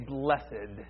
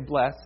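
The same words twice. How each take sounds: First: The word is said as two syllables. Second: The word is said as one syllable. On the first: This is the churchy, biblical form. "we use this two-syllable form of the word. We say blessed" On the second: This is the everyday, ordinary form. "We usually just say blessed"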